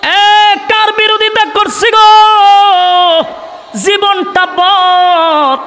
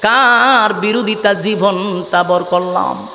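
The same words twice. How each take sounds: First: Hypocrites' wailing cry. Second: Low, slow chanted lament; hypocrites' murmured regret. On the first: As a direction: cry it out high, stretching the last words. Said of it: "মুনাফিকরা বলতে লাগলো". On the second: Hypocrites asking each other whom they opposed, low chanted regret. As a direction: draw the words out low in a rueful singsong. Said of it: "বলা বলি করতে লাগলো". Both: Acted.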